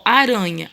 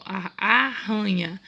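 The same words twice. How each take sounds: First: ARANHA with a light tongue-tap R; single tapped R. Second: ARRANHA slow and split, with an h-like R; strong double R. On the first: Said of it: "Aranha é um R só". ("aranha" com R brando, de um toque só) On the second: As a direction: slowly break "arranha" into "a, hanha". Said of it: "Dois R's". ("arranha" devagar, com R forte) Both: Shown as a demonstration.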